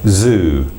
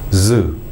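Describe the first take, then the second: First: It begins with a fully voiced, buzzing Z. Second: It begins with a Z weakened toward S. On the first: The speaker calls it right. "how we use the Z in the English pronunciation" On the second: The speaker calls it wrong. "it almost becomes an S quality"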